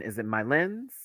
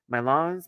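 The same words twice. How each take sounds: First: "Lens" with a short i-like vowel, rising; unsure pronunciation. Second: "Lens" with an open ah, like "lahns"; trying another pronunciation. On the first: Vlogger guessing at a French name, "Lens" said like "lins", unsure. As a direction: ask "Lens" tentatively, vowel close to "lins". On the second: Vlogger guessing at a French name, "Lens" tried with an ah, unsure. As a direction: try "Lens" as "lahns", questioning. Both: Shown as a demonstration. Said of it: "Imma get it right".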